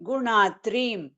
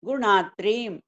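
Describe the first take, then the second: No difference in how they are said.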